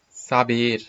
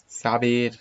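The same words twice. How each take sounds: No difference in how they are said.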